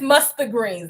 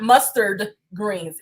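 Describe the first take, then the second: First: The words are said in dialect pronunciation. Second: The words are said in standard pronunciation. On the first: The speaker calls it right. "It's mustard greens" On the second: The speaker calls it wrong. "not mustard greens"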